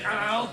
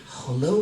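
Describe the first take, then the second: First: Put-on short hello in a Cuban accent; lightly put-on Cuban English. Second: Said in the usual way. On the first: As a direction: imitate a Cuban-accented greeting, pitched up. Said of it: "Cuban accent in English". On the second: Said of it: "I say".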